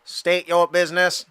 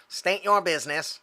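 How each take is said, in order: First: Clipped mechanical droid voice; battle droid voice. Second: Cool robot voice. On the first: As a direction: state it like a droid. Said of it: "Oh, there you go. I can do that". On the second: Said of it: "No, that's not d-, badass enough". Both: Acted.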